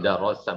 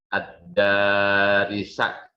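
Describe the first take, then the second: First: The vowels are a then o. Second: The vowels are a then i. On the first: The speaker calls it wrong. "bukan darosa" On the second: The speaker calls it right. "Ad-darisa, bukan darosa, bukan dirosa"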